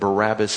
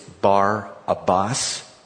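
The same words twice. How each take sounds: First: The name is run together as one word. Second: The name is split into Bar and Abbas. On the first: The speaker calls it wrong. "Barabbas is not the proper way to say his name" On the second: The speaker calls it right. "It's Bar-Abbas is the way we're supposed to say his name"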